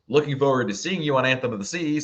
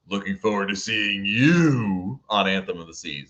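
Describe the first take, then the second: First: It is said in a warm, friendly way. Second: It is said in a menacing, threatening way. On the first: The writer is glad to meet on board. "I'm going to assume it's the first one" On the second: The writer has something unpleasant planned on board. "if it's the second one, uh, be, be, be nice"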